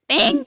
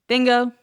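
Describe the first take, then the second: First: It is said like an excited six-year-old. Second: It is said in an impression of Teresa.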